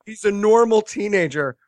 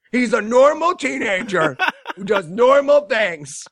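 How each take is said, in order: First: Said in the usual way. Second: Higher, laughing over-insistence; mock insistence. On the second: Film insisting the kid is fine, mock emphatic reassurance. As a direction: insist on it too hard, amused.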